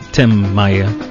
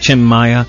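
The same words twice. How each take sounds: First: The name is said with an American pronunciation. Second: The name is said with a Brazilian pronunciation. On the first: "If he was from the States, he'd be" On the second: "But Brazilian pronunciation of his name"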